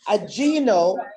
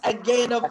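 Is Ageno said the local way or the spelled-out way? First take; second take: spelled-out; local. First: It is pronounced the way it is spelled. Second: It is pronounced the local Ugandan way. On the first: This is the old, mistaken pronunciation. The speaker calls it wrong. "we were saying Ageno because of the spelling" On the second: This is the corrected pronunciation. The speaker calls it right. "with the new pronunciation"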